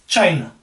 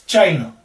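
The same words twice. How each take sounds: Both takes have the same delivery.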